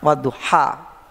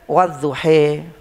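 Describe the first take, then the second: First: The final vowel is a clear open 'a'. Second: The final vowel leans toward an 'e' sound. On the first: "kalau ada alif maksura ya"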